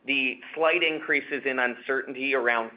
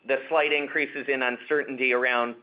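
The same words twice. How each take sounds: The two takes are said the same way.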